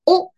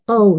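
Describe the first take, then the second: First: The vowel stays a steady, flat o. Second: The vowel glides as the lips round. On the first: The speaker calls it wrong. "O じゃなくて" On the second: The speaker calls it right. "O って感じですね"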